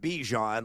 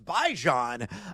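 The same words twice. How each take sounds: First: The name is said to rhyme with Dijon. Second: The name is said not rhyming with Dijon. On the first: The speaker calls it wrong. "It's not Bijan, like Dijon" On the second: The speaker calls it right. "No, it's Bijan"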